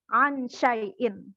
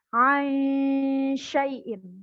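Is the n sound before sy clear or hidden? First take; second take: clear; hidden. First: The n is pronounced fully and distinctly. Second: The n blurs into the following sy sound. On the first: The speaker calls it wrong. "bukan dibaca ansyai'in. Itu bukan samar-samar namanya" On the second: The speaker calls it right. "Tapi aisyai'in"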